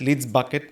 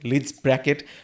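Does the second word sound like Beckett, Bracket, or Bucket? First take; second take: Bucket; Bracket. First: The second word is said as 'Bucket'. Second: The second word is said as 'Bracket'. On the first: "they pronounce it at" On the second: "they pronounce it at"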